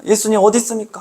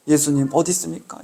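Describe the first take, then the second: First: 예수님 어디 있습니까 raised higher, 어디 pushed up like calling out; higher pleading cry. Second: 예수님 어디 있습니까 said softer, a quiet hurt question; soft plaintive plea. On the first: Preacher voicing a believer crying to Jesus, higher pleading call. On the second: Preacher voicing a believer crying to Jesus, quiet lament. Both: Retold or imitated. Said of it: "하며 울고 있는 겁니까".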